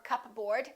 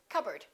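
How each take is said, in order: First: The p sound is pronounced. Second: The p sound is silent. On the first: The speaker calls it wrong. "Don't say cupboard or cupboard" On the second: The speaker calls it right. "say cupboard"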